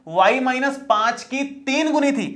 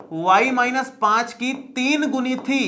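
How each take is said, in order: Both takes have the same delivery.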